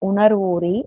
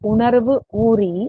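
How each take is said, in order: First: The two words are run together as one. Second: The two words are said separately. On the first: "வரிகளை வாசிச்சு" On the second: "அத பதம் பிரிச்சு"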